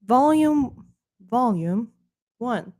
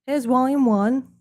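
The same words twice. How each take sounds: First: Put-on British accent. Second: "volume" said the plain American way; a plain American "Here's volume one."; American accent. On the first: Re-saying "volume one" for viewers in mock British accent. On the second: Acted. Slipping out of the British accent into plain American. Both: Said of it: "said so Americanly".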